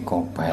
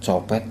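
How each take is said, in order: First: The word begins with a k sound. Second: The word begins with a ch sound. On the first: The speaker calls it wrong. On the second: The speaker calls it right.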